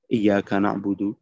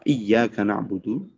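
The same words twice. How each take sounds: First: The y sound in iyyaka is single. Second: The y sound in iyyaka is doubled. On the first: To your sunlight we worship. The speaker calls it wrong. "tanpa tasydid" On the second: Only to you we worship. The speaker calls it right. "jika tasydidnya"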